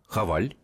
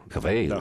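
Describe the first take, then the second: First: The second syllable sounds like 'al'. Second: The second syllable sounds like 'eil'. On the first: The speaker calls it wrong. "или я неправильно" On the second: The speaker calls it right. "«Хавейл», да"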